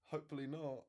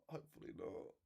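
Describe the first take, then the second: First: Said in the usual way. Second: Lower, much softer repeat under the breath; muttered to himself. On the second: Real, not acted. Streamer worries the live gets banned, muttered repeat. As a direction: trail off into a private mutter.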